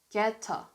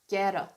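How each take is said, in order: First: The t is pronounced as a clear t. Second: The t softens into an American flap sound.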